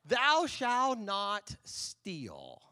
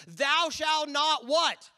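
First: Thou shalt not "steal" said very slowly and evenly as the full answer; measured, deliberate recital of the commandment. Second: Thou shalt not "what" drawn out, pitch up, leaving the last word hanging for the crowd; slow, high, loud cue for the congregation; prompt the crowd. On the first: Congregation answering the pastor, slow deliberate recital. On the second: Pastor inviting the congregation to finish the commandment, drawn-out cue. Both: Shown as a demonstration. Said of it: "You guys are like Bible scholars".

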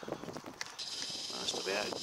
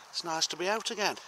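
First: Low breathy whisper of the same line. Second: Said in the usual way. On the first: Pretend.

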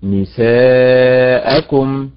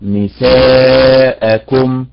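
First: "نساءكم" slowish, the stress on سا; correct stress. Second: "نساءكم" slow, the stress pushed onto the end; wrong stress. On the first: Teacher shows her class the correct نساءكم. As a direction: say "نساءكم" with weight on سا. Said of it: "فالأداء المستقيم". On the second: Teacher shows the class the wrong نساءكم. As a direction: drag "نساءكم" stressing the last syllable. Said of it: "وليست". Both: Shown as a demonstration.

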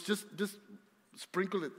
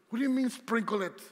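First: Casual and matter-of-fact, "sprinkle it" tossed off lightly; mother-in-law, offhand. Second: Louder, higher, baffled "Sprinkle it"; incredulous. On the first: Retold or imitated. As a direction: shrug it off like a seasoned cook. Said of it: "Marina's mom, she goes". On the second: Real, not acted. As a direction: throw the phrase back in disbelief. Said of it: "incredulous repeat of mom's advice".

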